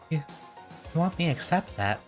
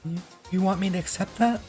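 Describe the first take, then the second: First: It is said without the put-on character voice. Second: It is said in a put-on character voice. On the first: The speaker calls it wrong. "I forgot how it sounds" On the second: The speaker calls it right. "I did a Psycho voice"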